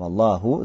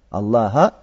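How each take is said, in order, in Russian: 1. Слово заканчивается на гласный 'u'. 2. Слово заканчивается на гласный 'a'. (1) "«Дамма» в Аллаху" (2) "На «фатху» Аллаха"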